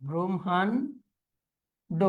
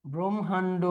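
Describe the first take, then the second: First: Brahmanda very slowly as "bromhan ... do"; broken into parts. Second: Said in the usual way. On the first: Shown as a demonstration. Teacher dictating to students, slowly in parts. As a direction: hold back the last syllable of Brahmanda.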